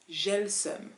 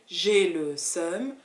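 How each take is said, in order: First: The words are said quickly, merged like one word. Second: Each word is pronounced clearly and separately. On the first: "you don't really hear j'ai and le anymore. It's more like one word" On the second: "instead of hearing j'ai le seum"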